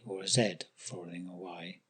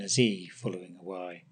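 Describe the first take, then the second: First: Z is pronounced the British way, 'zed'. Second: Z is pronounced the American way, 'zee'.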